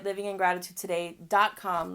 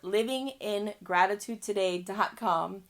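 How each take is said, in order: First: It is said at normal speed. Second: It is said more slowly.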